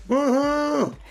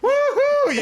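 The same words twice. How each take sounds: First: The cheer sounds weak and unenthusiastic. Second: The cheer sounds loud and enthusiastic.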